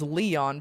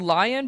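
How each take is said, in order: First: The name begins with a 'lee' sound. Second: The name begins with a 'lie' sound. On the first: This is how the speaker personally says it. "but I pronounce it as Leon" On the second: This is the name's actual pronunciation. "it's actually Lion"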